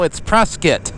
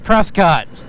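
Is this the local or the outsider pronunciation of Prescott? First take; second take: local; outsider. First: It is said the way the locals say it. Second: It is said the way an outsider says it. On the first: This is how the people who live there say it. The speaker calls it right. "no, it's Prescott" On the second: This is how someone not from the area says it. The speaker calls it wrong. "I used to think Prescott was pronounced"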